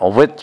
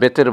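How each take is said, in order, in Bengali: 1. শব্দটি w ধ্বনি দিয়ে শুরু হয়। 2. শব্দটি b ধ্বনি দিয়ে শুরু হয়। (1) "আসলে উইত্র" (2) "আমরা বেতের বলি"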